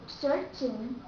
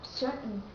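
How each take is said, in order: First: The T sound is clearly released. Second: The T sound is cut off. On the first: The speaker calls it wrong. "Americans don't say certain" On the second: The speaker calls it right. "the letter T here is dropped and the sound is cut off"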